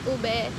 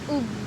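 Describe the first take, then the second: First: The word is said with two syllables. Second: The word is said with one syllable. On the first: The speaker calls it wrong. "It's not ube" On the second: The speaker calls it right. "It's ub"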